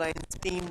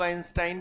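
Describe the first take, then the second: First: आइंस्टीन ending in a long "-steen"; आइंस्टीन said "Ain-steen"; pronunciation variant. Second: आइंस्टाइन ending in "-stain", rhyming with "line"; आइंस्टाइन said "Ain-stine"; pronunciation variant. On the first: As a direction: say आइंस्टीन with "ee" in the last syllable. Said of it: "कुछ लोग आइंस्टीन बोलते हैं". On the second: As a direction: say आइंस्टाइन with a long "eye" in the last syllable. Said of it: "सबका अपना अपना pronunciation है". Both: Shown as a demonstration.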